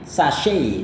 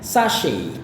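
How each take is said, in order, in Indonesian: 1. Diucapkan dengan gaya Amerika. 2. Diucapkan dengan gaya Inggris. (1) "yang paling populer untuk pelafalan Amerika" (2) "kata ini gaya British ya"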